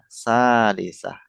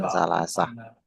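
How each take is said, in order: First: The middle vowel sounds like 'i'. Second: The middle vowel sounds like 'a'. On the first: The speaker calls it right. "Iya, salisah" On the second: The speaker calls it wrong. "bukan salasah"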